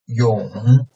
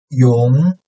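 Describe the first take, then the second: First: The pitch dips low, then rises slightly. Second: The pitch rises from mid to high.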